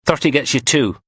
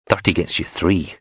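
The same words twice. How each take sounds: First: Higher, cocky dealer quoting a price; Sparks haggling. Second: Said in the usual way. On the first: A narrator's reading. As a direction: stress on "Thirty", cocky and sly. Sparks quotes his price to Blondie.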